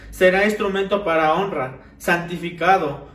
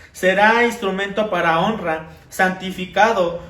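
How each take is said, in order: The two takes are said the same way.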